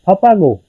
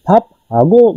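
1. h की ध्वनि एक अस्पिरेटेड व्यंजन में मिल जाती है। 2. h की ध्वनि व्यंजन के बाद अलग से बोली जाती है। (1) "लेकिन प्रोनाउंस करने में है फपागो" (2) "फप हागो वर्ड है लिखने में"

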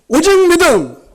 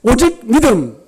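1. 이 구절은 더 큰 목소리로 외칩니다. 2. 이 구절은 보통 크기로 외칩니다. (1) "다시 더 큰 목소리로" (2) "우리 한번 외쳐볼까요?"

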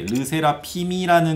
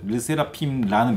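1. 最後のmは次のミの頭に移ります。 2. 最後のmで閉じて、すぐラが続きます。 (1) "ルセラピムの下のミウムっていうのを後ろに上げて、ルセラピミラヌになればいいんですけど" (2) "ただピンの後ろにイーが短くてラをすぐつけちゃったんですよ。ルセラピンラヌみたいに。"

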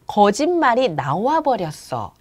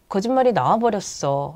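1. 입을 크게 벌려서 발음이 또렷해요. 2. 입을 거의 안 벌리고 웅얼거리는 발음이에요. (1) "입을 크게 벌리면 목소리도 좋아지고 발음도 정확해집니다" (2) "라고 읽기보다는"

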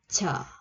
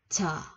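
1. Phụ âm đầu có một luồng hơi bật ra. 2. Phụ âm đầu có một luồng hơi bật ra.

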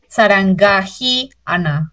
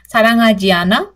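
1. Cada letra escrita se pronuncia tal como está escrita. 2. Los sonidos se unen como en el habla natural. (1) "en romanización ustedes leerían" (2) "con lo que dijo ahorita la Sonsenim Sonia"

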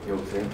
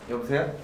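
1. 이 목소리는 일부러 낮고 깔게 낸 음높이예요. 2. 이 목소리는 보통 말할 때의 음높이예요. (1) "목소리를 되게 일부러 내 깔고 통화하는 거" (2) "이게 평소 톤이에요"

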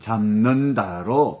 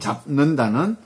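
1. 첫 음절은 'm' 소리로 끝나요. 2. 첫 음절은 'p' 소리로 끝나요. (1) "잡는다로 바뀐다"

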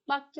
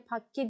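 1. Kelime yumuşak b sesiyle başlıyor. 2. Kelime sert p sesiyle başlıyor. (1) "önünde her zaman bir isim yer alacağı için bakke olarak telaffuz edeceğinizden" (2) "şu haliyle pakke diye okunuyor"

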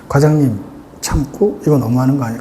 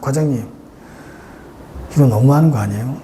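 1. 대사 한 줄 내내 숨을 참아요. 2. 중간에 숨을 한 번 쉬어요. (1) "참고 ... 깔끔하잖아요" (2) "중간에 숨을 쉰다"

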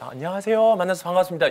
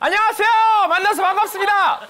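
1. 목소리가 낮고 조용해요. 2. 목소리가 높고 밝아요. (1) "조용히 낮춰주세요" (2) "떨어지는 거, 내려오는 거는 쉽대요. 예를 들어"

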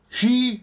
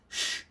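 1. 자음 뒤에 모음 소리가 옵니다. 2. 자음은 뒤에 모음 없이 발음합니다. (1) "쉬 아닙니다" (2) "무성음은 을을 넣으면 안 됩니다"

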